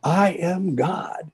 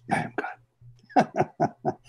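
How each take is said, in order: First: A high, slow, lightly raised declaration; mock shout. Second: Barely breathed, very slow and hushed; a shy, near-silent whisper of the words; almost inaudible whisper. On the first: Mrs Crystal finally declaring to Baba, mild mock shout. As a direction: stretch it out high, half-shouted. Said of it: "virtually shouting it". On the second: Retold or imitated. Speaker imitating her frightened whisper to Baba, near-silent whisper. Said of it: "she whispered almost inaudibly".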